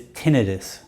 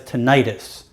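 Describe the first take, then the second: First: It is said the way medical terminology says it. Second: It is said the way many people say it. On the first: This is the formal medical way to say it. "medical uh, terminology is tinnitus" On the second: This is the everyday way people say it. "Many people pronounce it as tinnitus"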